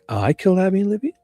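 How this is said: It is said sarcastically, as a mocking question.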